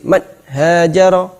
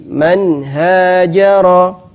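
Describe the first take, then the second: First: Man hajara said rigid and choppy; stiff recitation. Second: Man hajara slow and flowing, nun clear; supple recitation. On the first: Teacher showing stiff wrong reading. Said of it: "kaku sekali seperti". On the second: Teacher showing the correct smooth reading. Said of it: "bacanya tetap lentur". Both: Shown as a demonstration.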